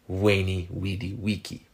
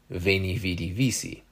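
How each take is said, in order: First: Each word begins with a W sound. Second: Each word begins with a V sound. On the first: This is the classical pronunciation. "it was actually pronounced more like" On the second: This is the later, Vulgar Latin pronunciation. "Vulgar Latin turned most of those W sounds into V sounds"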